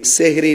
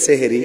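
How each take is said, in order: First: It is said in two syllables, seh-ri. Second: The same.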